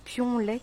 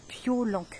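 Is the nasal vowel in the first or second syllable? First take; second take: first; second. First: The nasal vowel is in the first syllable. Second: The nasal vowel is in the second syllable. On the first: The speaker calls it wrong. "Moi, je dis Pionlec" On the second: The speaker calls it right. "et c'est Piolenc"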